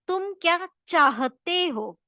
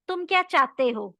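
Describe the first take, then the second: First: The h sound in चाहते is clear. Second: The h sound in चाहते is dropped. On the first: The speaker calls it right. "This one is right" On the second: The speaker calls it wrong. "So this is wrong"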